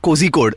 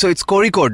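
First: The middle consonant is a plain z sound. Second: The middle consonant is an r-like sound. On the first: The speaker calls it wrong. "not Kozhikode, as many people think" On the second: The speaker calls it right. "it's ZH. That is Tamil for R"

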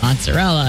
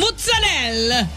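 First: It is said with an American accent. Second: It is said with an Italian accent. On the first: "I'll say" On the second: "And she'll say"

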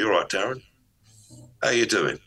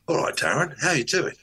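First: The greeting sounds dominant and forceful. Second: The greeting sounds happy and cheerful. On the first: "or I can do the dominant energy" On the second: "I can do a happy energy"

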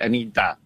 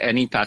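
First: The last syllable starts with a d sound. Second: The last syllable starts with a t sound. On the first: The speaker calls it right. "后面是Da" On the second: The speaker calls it wrong. "她不是Ta 啊"

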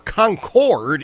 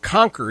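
First: It is pronounced the North Carolina way. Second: It is pronounced the New Hampshire way. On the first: This is how the North Carolina city is called. "in North Carolina" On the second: This is how the New Hampshire city is called. "as it is in New Hampshire"

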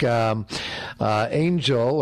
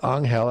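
First: The name is said with English sounds. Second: The name is said with Spanish sounds.

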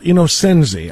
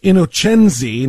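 First: The name is said with American English pronunciation. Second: The name is said with Italian pronunciation. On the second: "I'm going to go with ... we're going full-blown Italian here"

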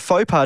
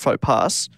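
First: The final s of pas is silent. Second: The final s of pas is sounded. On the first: The speaker calls it right. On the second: The speaker calls it wrong.

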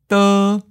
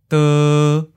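First: The pitch stays high and level. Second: The pitch stays mid and level. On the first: "First tone, high flat" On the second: "Seventh tone, mid flat"

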